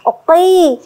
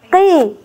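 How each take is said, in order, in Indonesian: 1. Suku kata ini terdengar berat dan tebal. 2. Suku kata ini terdengar lebih ringan dan kurang tebal. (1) "Pada saat kasrah tidak perlu oqi, tidak perlu seperti itu" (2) "Jadi dibaca hanya qi, qi. Tetap pada makhrajnya tapi berkurang ketebalannya"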